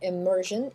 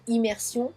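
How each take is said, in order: First: Slow "immersion", im-MUR-zhun; English pronunciation. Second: "immersion" said ee-mehr-SYON; French "immersion", s sound and nasal ending; French pronunciation. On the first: Teacher compares English with French, slow "immersion" as im-MUR-zhun. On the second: Teacher gives the same word in French, "immersion" as ee-mehr-SYON. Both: Shown as a demonstration. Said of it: "pareil, même mot".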